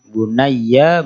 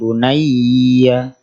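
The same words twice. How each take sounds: First: The 'ya' sound is kept short. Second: The 'ya' sound is held long. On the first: The speaker calls it right. "Ya-nya jangan ditahan" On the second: The speaker calls it wrong.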